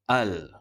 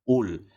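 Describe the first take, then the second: First: The word starts with an a vowel. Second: The word starts with a u vowel. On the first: The speaker calls it right. "dibunyikan dengan sebutan berbaris atas" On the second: The speaker calls it wrong. "sebutan berbaris hadapan"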